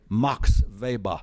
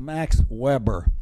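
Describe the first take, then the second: First: Weber is said with a German pronunciation. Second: Weber is said with an English pronunciation. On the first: This is how academics say it, avoiding American English. "they all say Max Weber" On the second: This is the natural American way to say it. "Think of it as Max Weber"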